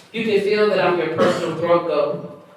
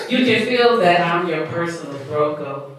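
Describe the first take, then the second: First: Said in the usual way. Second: A touch slower, evenly spaced; slightly slow. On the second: Shown as a demonstration. Poet repeating a line on host's request, slightly slow. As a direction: recite the line a little more slowly. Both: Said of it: "but say it slow this time".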